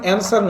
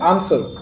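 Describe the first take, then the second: First: The first vowel sounds like the vowel in cat. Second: The first vowel sounds like the vowel in father. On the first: The speaker calls it wrong. "এটার উচ্চারণ অ্যান্সার নয়" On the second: The speaker calls it right. "এটার উচ্চারণ কি আনসার"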